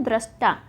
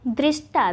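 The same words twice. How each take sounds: First: दृष्टा as "drashta"; दृष्टा, first syllable "dra"; correct form shown. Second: दृष्टा as "drishta"; दृष्टा, first syllable "dri"; wrong form shown. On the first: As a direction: say दृष्टा with short a after dr. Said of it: "यहाँ पे क्या होता है". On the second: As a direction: say दृष्टा with i after dr. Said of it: "दृष्टा भी नहीं होता है". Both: Shown as a demonstration.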